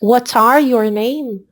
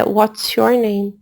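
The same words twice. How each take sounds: First: "What are your name?" spaced out slowly, with ARE standing apart; deliberate wrong example. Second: "What's your name?" said slowly and evenly as the model; slow, measured "What's your name?", settling down at the end; deliberate correct example. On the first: Teacher showing students a grammar slip, "are" picked out slowly. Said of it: "cometer um erro gramatical nessa pergunta". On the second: Teacher giving the correct question, "What's your name?" slow and measured. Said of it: "o que é perguntado é". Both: Shown as a demonstration.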